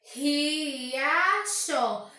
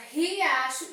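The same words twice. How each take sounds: First: RIACHO esticado em três partes, RI-A-CHO; separado em sílabas. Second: Said in the usual way. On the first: Shown as a demonstration. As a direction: diga "Riacho" devagar, sílaba por sílaba. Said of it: "eu percebo que eu tenho três sílabas". (silabado, RI... A... CHO) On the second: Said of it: "Ao pronunciar a palavra riacho".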